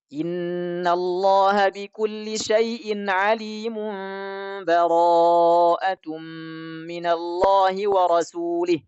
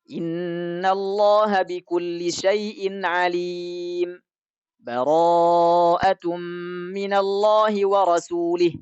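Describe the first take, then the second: First: The verses run together with no stop between. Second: A brief stop without breath separates the verses. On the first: "wasal, disambungkan semuanya" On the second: "saktah. Saktah itu apa? Berhenti tanpa ambil nafas"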